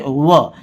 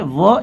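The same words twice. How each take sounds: First: व with lips rounded, like the w of "window". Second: व as a v, lips not rounded; plain v sound. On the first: Teacher contrasts it with v for learners, व as rounded w. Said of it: "होंठ को घुमा के बोलेंगे". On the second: Teacher contrasts the two sounds for learners, व as plain v. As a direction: say व like the v of "van". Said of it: "व में थोड़ा सा फर्क है". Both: Shown as a demonstration.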